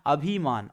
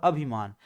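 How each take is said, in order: First: धीरे बोलते हुए अभिमान में 'भि' को लंबा 'भी' बोलें; slow 'अभिमान' with a long ee in the second syllable; गलत वर्तनी का उच्चारण. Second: Slow 'अभिमान' with a short i in the second syllable; सही छोटी मात्रा. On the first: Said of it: "भी तो क्या होनी चाहिए". (अभिमान को खींचकर 'अभी-मान' जैसा) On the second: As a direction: say अभिमान correctly, keeping 'भि' short. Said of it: "छोटी होनी चाहिए". (अभिमान में छोटी इ वाला 'भि' बोलें) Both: Shown as a demonstration.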